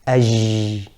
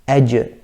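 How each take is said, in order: First: The j is soft, with no full tongue contact. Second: The j is made with full tongue closure. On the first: The speaker calls it wrong. "one of the common mistakes is to say aj" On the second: The speaker calls it right. "if you say it correctly"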